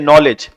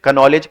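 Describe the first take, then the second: First: The word begins with an n sound, k silent. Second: The word begins with a pronounced k sound. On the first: The speaker calls it right. "नॉलेज में के silent होता है" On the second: The speaker calls it wrong. "अगर हम इसका real pronunciation नहीं जानते"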